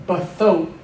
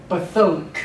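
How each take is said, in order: First: Bathok with a short schwa on the first syllable; teacher models bathok slowly and clearly; Hebrew bathok. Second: Bathok said again with a falling finish; Hebrew bathok repeated. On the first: Teacher pronouncing vocabulary for students, clear model word. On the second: Teacher repeats the word for students, clear falling model. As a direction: repeat Bathok, the first syllable a quick schwa. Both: Shown as a demonstration. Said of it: "but this would be".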